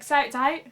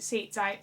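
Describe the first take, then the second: First: "Seats" said as "sights", higher and louder; dialect SEATS as "sights". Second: Said in the usual way. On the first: Retold or imitated. Grandchild quoting family's car talk, "Seats" pronounced "sights". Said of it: "the way people say stuff usually is pretty confusing".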